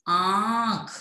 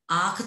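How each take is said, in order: First: आंख with "aa" through the nose; nasalized vowel. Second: आंख as a plain oral "aakh"; wrong, without nasal. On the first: Teacher gives the right sound, nasalized आंख. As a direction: hold a nasal "aan" in आंख before "kh". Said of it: "इसकी ध्वनि होगी". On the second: Teacher rejects wrong sound, आंख said as oral "aakh". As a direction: drop the nasal from आंख, open "aa" then "kh". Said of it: "आंख तो नहीं होगी". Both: Shown as a demonstration.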